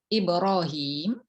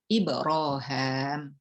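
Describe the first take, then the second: First: The vowel after the h is 'ee'. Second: The vowel after the h is a long 'ah'.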